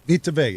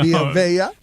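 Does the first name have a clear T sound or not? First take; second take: clear T; no T. First: The first name is said with a T sound. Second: The first name is said without a T sound. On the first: The speaker calls it right. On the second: The speaker calls it wrong.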